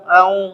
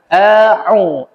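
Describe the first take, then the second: First: The throat consonant is skimmed over lightly. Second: The throat consonant is clearly articulated. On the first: The speaker calls it wrong. "melalui ... itu salah" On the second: The speaker calls it right. "A pangkal, pangkal tenggorokan"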